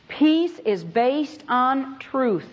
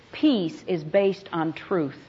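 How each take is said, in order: First: Peace is based on truth, each word drawn out slowly; slow right down and weigh every word; slow emphatic repeat. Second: Said in the usual way. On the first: Shown as a demonstration. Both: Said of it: "repeated line".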